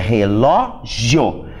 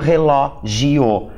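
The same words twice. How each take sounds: First: The ending io forms one syllable, three in total. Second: The ending i and o split, four in total. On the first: The word is a paroxytone ending in a diphthong. The speaker calls it right. "Essa é a separação correta da palavra" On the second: The word would become a proparoxytone. The speaker calls it wrong. "e não relógio. Aí ela ficaria uma proparoxítona"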